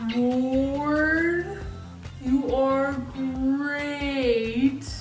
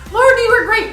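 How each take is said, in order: First: It is said very slowly. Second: It is said very fast.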